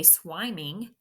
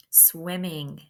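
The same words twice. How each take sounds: First: Swiming with a long i, like SWY-ming; long "eye" vowel in swiming; mispronounced swiming. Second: Said in the usual way. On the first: Shown as a demonstration. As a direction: say swiming as if it had one m. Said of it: "I hope your word doesn't say swiming". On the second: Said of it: "double that consonant".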